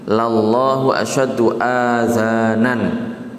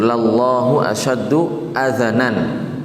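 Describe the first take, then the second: First: The vowels in the last word are long. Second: The vowels in the last word are short. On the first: God has ears. The speaker calls it wrong. "dengan dibaca panjang hamzahnya dan zalnya" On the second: God hears most keenly. The speaker calls it right. "yang dengan di fathah hamzahnya dan juga zalnya"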